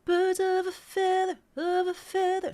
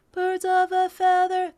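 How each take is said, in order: First: Sung with the F sounds crisply articulated. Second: Sung evenly with no bounce; flat, robotic phrasing, every note level; robotic straight. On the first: Vocal coach demonstrating styled phrasing. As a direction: bite the Fs in "feather". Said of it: "articulating those Fs". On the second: Teacher showing the robotic way to sing it. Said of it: "that's very robotic and straight". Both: Shown as a demonstration.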